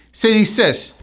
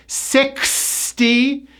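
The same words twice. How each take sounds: First: "City sis" with the K sounds dropped; clients' unclear sixty-six. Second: "Sixty-six" slow and high, each K clicked; clear K sound. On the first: Retold or imitated. Teacher imitates workshop clients' error, K-less "City sis". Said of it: "many pronunciation workshop clients would say". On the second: Shown as a demonstration. Teacher corrects clients, slow "Sixty-six" with clear K. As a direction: break "Sixty-six" into parts, KS fully sounded. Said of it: "You need the K sound".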